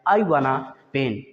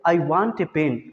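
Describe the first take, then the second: First: Want and a blend into one word, wanna. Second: Want and a are said as separate words. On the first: "short form में" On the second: "I वांट ए pen न बोल करके"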